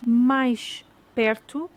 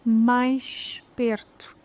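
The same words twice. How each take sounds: First: "mais perto" very slow, the sh of mais clear; slow demo. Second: "mais perto" very slow, same sh sound; slow demo. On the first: Teacher slowly sounding the sh in mais perto. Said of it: "O som sh". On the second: Teacher slowly repeating mais perto with the same sh. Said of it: "pronunciadas da mesma maneira". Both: Shown as a demonstration.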